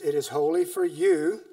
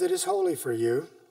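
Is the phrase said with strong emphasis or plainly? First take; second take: emphatic; plain. First: The phrase is read with strong added emphasis. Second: The phrase is read plainly without special emphasis.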